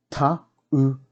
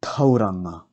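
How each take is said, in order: First: "Tauranga" split as Ta, u, ra, nga; broken into syllables. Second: Said in the usual way. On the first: Shown as a demonstration. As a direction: sound out each syllable with gaps. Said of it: "break down the words first". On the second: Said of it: "pronounce these words correctly".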